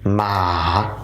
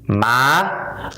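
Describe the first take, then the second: First: The pitch drops and then rises again. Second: The pitch rises toward the end. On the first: It means tomb. "drop your voice, go a little down, and you got to raise it back up" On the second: It means mother. "raise your voice a little bit higher"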